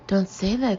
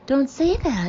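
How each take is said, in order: First: It is said at a normal pitch. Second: It is said at a much higher pitch.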